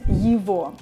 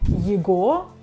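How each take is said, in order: First: The middle consonant is a v sound. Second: The middle consonant is a hard g sound. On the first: The speaker calls it right. "instead I'm saying его" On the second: The speaker calls it wrong. "I'm not saying его"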